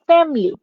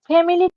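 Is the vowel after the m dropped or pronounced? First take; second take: dropped; pronounced. First: The vowel after the m is dropped. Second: The vowel after the m is pronounced. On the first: "M এর পর যে একটা আই আছে, এই আইটাকে কিন্তু আমরা বাদ দিয়ে" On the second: "ফ্যামিলি কথাটা বলি না"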